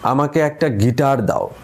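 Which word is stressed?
Guitar. The stress is on the third word. Only a guitar is wanted, nothing else. "এখন যদি তৃতীয় শব্দটায় জোর দিই"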